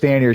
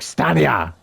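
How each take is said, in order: First: It is said with an American accent. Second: It is said with a German accent.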